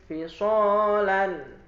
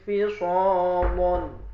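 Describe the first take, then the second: First: The L is light and thin. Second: The L is heavy and thick. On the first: "Kalau tarkik" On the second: "kalau taglid"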